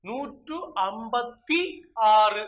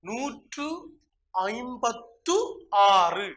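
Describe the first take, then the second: First: The middle word ends with a 'thi' sound. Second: The middle word ends with a 'thu' sound. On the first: The speaker calls it wrong. "அது தவறு" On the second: The speaker calls it right. "சரியாக இந்த எண்ணுடைய உச்சரிப்பை"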